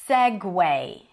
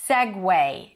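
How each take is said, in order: No difference in how they are said.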